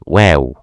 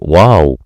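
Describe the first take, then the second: First: The letter name is said lightly and briefly. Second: The letter name is said heavily and fully. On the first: The speaker calls it right. "It's so light letter" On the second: The speaker calls it wrong. "Don't say wow. It's wrong"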